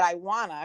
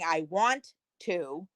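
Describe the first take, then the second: First: The words 'want to' are reduced to 'wanna'. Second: The words 'want to' are said in full. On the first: "I said I wanna because that's how we say it here" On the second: "instead of saying I want to"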